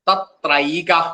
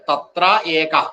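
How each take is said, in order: First: The words merge into one, with a and e fused to ai. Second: The two words are said separately, with a and e. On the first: "ആ ഏ കൂടുമ്പോ ഐ ആണ് വരിക" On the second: "കൂടി വരുമ്പോൾ"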